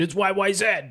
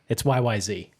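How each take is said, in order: First: The last letter is said Canadian-style, as zed. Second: The last letter is said American-style, as zee.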